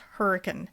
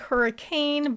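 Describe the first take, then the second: First: The word is said the local, British-style way. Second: The word is said the way it is spelled. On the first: "but it's pronounced hurricane" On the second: "It looks like hurricane"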